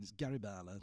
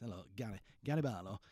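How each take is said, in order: First: Said in the usual way. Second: Lightly voiced pop star, softer and lower; a hint of a northern pop singer, half-hearted. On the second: Host mocking a pop star for listeners, bad impression. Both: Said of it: "talks like this".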